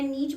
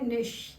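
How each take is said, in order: First: The word ends in a 'ch' sound. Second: The word ends in an 'sh' sound. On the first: The speaker calls it wrong. "मैंने नीच बोलते भी सुन लिया है" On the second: The speaker calls it right. "लेकिन ये word जो है ये है निश"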